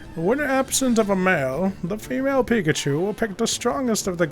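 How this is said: It is read in an imitated narrator's voice.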